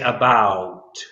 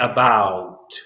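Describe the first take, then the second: First: The vowel is a Midwestern American open diphthong. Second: The vowel is a Midwestern American open diphthong.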